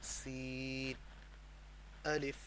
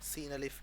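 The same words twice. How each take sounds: First: The two names are separated by a pause. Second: The two names run together without a pause. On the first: The speaker calls it right. "अलहदा अलहदा रुक के, ... ऐसे अलहदा अलहदा" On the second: The speaker calls it wrong. "ऐसे नहीं पढ़ना"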